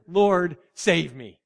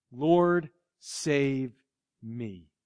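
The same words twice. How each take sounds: First: Louder, urgent call on Lord; a sinking man's sudden plea; natural cry out. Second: Fading soft plea, falling away to almost nothing; a hushed, desperate prayer; whisper-soft cry to the Lord; quiet cry for help. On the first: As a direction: cry it out straight from the gut. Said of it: "he cried out very naturally". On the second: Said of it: "you've got to cry out". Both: Retold or imitated.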